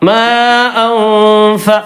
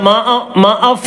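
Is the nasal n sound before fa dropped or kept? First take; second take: kept; dropped. First: A nasal n sound is kept before fa. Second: The nasal n sound before fa is left out. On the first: The speaker calls it right. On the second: The speaker calls it wrong.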